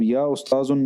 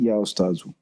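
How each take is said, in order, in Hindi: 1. आख़िरी शब्द के अंत में एक अतिरिक्त 'न' ध्वनि जुड़ी होती है। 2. आख़िरी शब्द एक छोटी 'उ' स्वर ध्वनि पर समाप्त होता है। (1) "नहीं कहेंगे" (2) "बल्कि या उस्ताज़ु"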